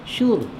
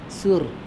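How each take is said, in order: First: The word begins with a 'sh' sound. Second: The word begins with an 's' sound. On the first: The speaker calls it right. "Dengan shin" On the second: The speaker calls it wrong. "Ini dengan sin"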